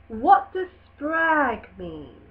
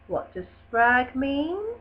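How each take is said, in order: First: The voice falls at the end. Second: The voice rises at the end. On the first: The speaker calls it right. "questions that should have a strong force" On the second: The speaker calls it wrong. "finishing this W H question with a rise in intonation at the end"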